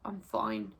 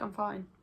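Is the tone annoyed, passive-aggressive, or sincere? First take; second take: passive-aggressive; sincere. First: It sounds sulky and passive-aggressive. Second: It sounds relaxed and sincere. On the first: The speaker is not fine and wants an apology. "I definitely didn't mean I was fine" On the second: The speaker really is fine. "I'm actually fine"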